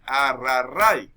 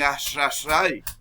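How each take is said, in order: First: The r sounds are said as trilled r. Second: The r sounds are said like sh. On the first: "en vez de decir" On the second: "cambian la R con un tono como de eshe"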